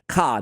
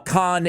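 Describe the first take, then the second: First: The name ends with an open vowel. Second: The name ends with an n sound. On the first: The speaker calls it right. "Ka, not Khan" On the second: The speaker calls it wrong. "my bad"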